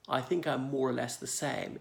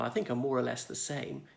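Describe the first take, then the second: First: It is conservative RP with longer, enunciated vowels. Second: It is relaxed, everyday speech with ordinary vowels. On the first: "with the vowels more enunciated there, a little bit longer" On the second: "my speech comes out naturally"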